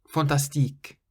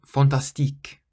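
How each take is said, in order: The two takes are said the same way.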